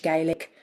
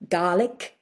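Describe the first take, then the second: First: Said in the usual way. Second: "Gaelic" said as GAH-lik; Scottish pronunciation. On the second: Shown as a demonstration. Naming the Scottish language to the host, "Gaelic" as GAH-lik. Scottish name, then the English one.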